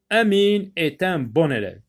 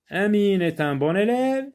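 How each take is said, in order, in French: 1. La voix descend à la fin. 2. La voix monte à la fin. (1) "j'ai lu avec euh, une, une voix euh, qui baisse à la fin" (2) "à la fin de la phrase, la voix monte"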